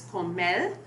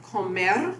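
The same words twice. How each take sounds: First: "comel" ending in an l sound; final R as L. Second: Said in the usual way. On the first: Shown as a demonstration. Lecturer showing lateralization, "comel" with final L. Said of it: "being pronounced as comel". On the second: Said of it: "realizing it as an L".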